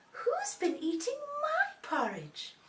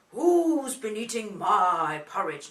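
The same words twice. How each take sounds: First: High, slow Mummy bear; mummy's voice. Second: Big, loud, slow Daddy bear; deep Daddy voice. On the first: Mummy bear asks about her porridge, high mummy voice. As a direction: draw it out high as a mother bear. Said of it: "in a mummy's voice". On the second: Daddy bear finds his porridge eaten, deep booming voice. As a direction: boom it out slowly as a deep-voiced father bear. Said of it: "Nice big voice for Daddy". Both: Shown as a demonstration.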